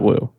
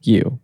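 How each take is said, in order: First: The word begins with a W sound. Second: The word begins with a Y sound. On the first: The speaker calls it wrong. "I'm like ninety-nine percent sure it's not woo" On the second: The speaker calls it right. "It's you"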